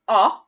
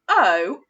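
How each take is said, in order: First: The vowel is short, as in hot. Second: The vowel is long, as in cold. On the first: "O as in hot" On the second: "O as in cold"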